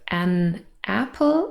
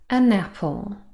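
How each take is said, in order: First: The two words are said separately. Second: The n joins onto the next vowel. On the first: "instead of" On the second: "we link them together"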